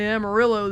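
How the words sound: It is said with a Texan American pronunciation. It imitates local cowboys talking. "that was how all the people around me in Texas pronounced Amarillo"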